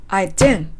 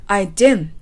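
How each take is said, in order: The two takes are said the same way.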